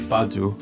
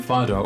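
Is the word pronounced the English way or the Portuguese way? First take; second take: Portuguese; English. First: The word is pronounced the Portuguese way. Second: The word is pronounced the English way.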